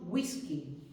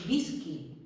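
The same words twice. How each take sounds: First: The first sound is a U-like glide. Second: The first sound is not a U-like glide. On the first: The speaker calls it right. "como una U en palabras como whisky" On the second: The speaker calls it wrong. "en whisky no decimos"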